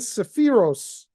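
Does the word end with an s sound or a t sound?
s sound. It ends with an s sound, Ashkenazic style.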